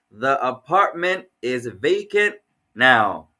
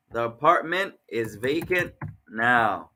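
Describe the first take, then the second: First: 1 slow. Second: 1 slow again. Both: Shown as a demonstration.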